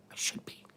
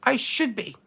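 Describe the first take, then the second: First: Breathy whispered aside. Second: Said in the usual way. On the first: Real, not acted. Duchess whispering her wish to be queen to chat. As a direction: whisper it to yourself, a secret wish.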